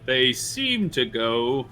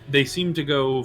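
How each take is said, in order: First: It is said in a plain, unchanged voice. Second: It is said in a put-on character voice. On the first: The speaker calls it wrong. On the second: The speaker calls it right.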